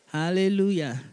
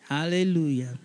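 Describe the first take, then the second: No difference in how they are said.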